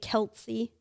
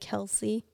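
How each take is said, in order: First: A T sound is added before the s. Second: No T sound is added before the s. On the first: The speaker calls it wrong. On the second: The speaker calls it right.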